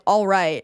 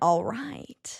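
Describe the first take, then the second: First: The voice is smooth without vocal fry. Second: The voice is creaky with vocal fry. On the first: "instead of just being like" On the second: "there's a little bit of vocal fry being like"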